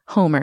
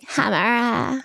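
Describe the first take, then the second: First: The name is said in a plain accent. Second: The name is said in a Valley Girl accent.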